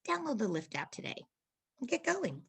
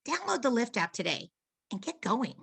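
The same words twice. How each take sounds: First: It is thrown away, relaxed and quieter. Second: It is delivered with a little push, louder.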